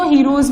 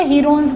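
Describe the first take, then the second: First: हीरोज said as heer-oz, no n, ending in a z sound; Heroz pronunciation. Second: हीरोन्स said as heer-ons, with an n sound before the final s; Heron's pronunciation. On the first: Teacher giving the other way students say it: हीरोज, no n and a z ending. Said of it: "कई लोग इसको हीरोज भी बोलते हैं". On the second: Teacher giving one way students say it: हीरोन्स, with the n sounded. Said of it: "कई लोग इसको हीरोन्स भी बोलते हैं". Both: Shown as a demonstration.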